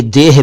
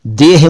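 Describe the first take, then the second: First: "देह" as a quick deh, audible h; short e, breath of h closing "देह"; short vowel. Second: "देह" as deyh, with a drawn ay; one long syllable in "देह"; long vowel version. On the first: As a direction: barely draw out the e in "देह". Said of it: "ए को कम खींचना है". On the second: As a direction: stretch the e in "देह". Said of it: "इसे आप देह मत समझिएगा". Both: Shown as a demonstration.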